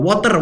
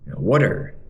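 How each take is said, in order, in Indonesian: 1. Diucapkan dengan aksen Indonesia. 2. Diucapkan dengan aksen Amerika. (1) "kita Indonesia suka banget pakai uh, water" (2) "Orang Amerika bilang water"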